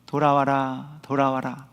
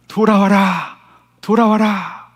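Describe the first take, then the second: First: Gentle, hushed, voiced near-whisper; soft whisper-like call. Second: Raised, higher-pitched calling out; megaphone-like shout. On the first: Preacher voices God calling through conscience, softly whispering. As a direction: softly murmur it like a small inner whisper. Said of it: "이런 속삭임이라면". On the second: Acted. Preacher voices God calling through suffering, shouting out. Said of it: "이렇게 소리치시는 하나님의 확성기".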